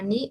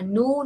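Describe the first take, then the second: First: The vowel is a spread ee sound. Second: The vowel is a back rounded oo sound. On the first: "no es una ni" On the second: "no es una nu"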